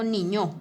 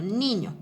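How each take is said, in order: First: "niño" wrongly stressed on the last syllable, ni-ÑO; stress on final syllable. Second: "niño" stressed on the first syllable, NI-ño. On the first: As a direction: push the "ño" at the end of "niño". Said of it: "Yo no digo niño". ("niño" mal acentuado, como "niñó") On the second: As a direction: lean on "ni" and let "ño" fall in "niño". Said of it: "sino niño". ("niño" bien acentuado en la sílaba "ni") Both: Shown as a demonstration.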